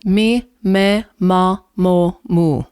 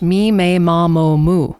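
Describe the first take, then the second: First: The vowels are pure, clear and clean. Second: The vowels are stretched and unclear, English-style. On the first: The speaker calls it right. "In Italian" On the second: The speaker calls it wrong. "Compared to in English"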